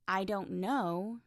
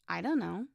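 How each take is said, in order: First: Every word is pronounced fully and separately. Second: The words are reduced and run together.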